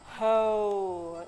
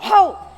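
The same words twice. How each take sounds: First: The word is drawn out slowly and low. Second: The word is said sharply and quickly. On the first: The horse is asked to calmly slow down. The speaker calls it right. "it's deep and low and it comes out slow" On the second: The horse feels it must stop in a panic. The speaker calls it wrong. "you're saying it really fast and quick"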